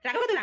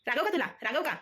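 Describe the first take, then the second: First: "रागव का तुला" pushed much higher, a bit louder and rising; sharper mock scolding. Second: High playful mock telling-off of "रागव का तुला"; pretend-stern question to the baby, pitched up; mock scolding. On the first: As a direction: pretend threat, pitched way up. (उंच आवाजात लटका दम देणे) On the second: (लटक्या रागात बाळाला विचारणे)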